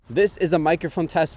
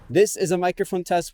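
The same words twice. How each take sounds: First: Background noise is audible behind the voice. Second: Background noise is removed from behind the voice. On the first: "with no noise reduction turned on" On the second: "with noise reduction turned on"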